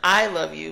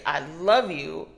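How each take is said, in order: First: The stress is on "I". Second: The stress is on "love".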